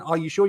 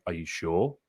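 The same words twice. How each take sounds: First: Higher, light checking question; gentle second try. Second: Lower, softer challenging question. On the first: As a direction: check lightly, pitched up, without challenging. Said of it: "I don't wanna do it in a combative way". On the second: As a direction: question their answer combatively, pitched down. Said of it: "I sound like I'm challenging them". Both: Shown as a demonstration.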